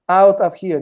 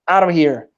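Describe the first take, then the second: First: The words are said choppily and separately. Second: The words are blended smoothly together. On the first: The speaker calls it wrong. "I'm saying" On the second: The speaker calls it right. "he's blending words better"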